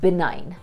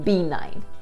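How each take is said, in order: First: The first syllable has a short i vowel. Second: The first syllable sounds like the letter B. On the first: The speaker calls it right. "यहाँ ब पे छोटी ई की मात्रा लगेगी" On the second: The speaker calls it wrong. "not B nine"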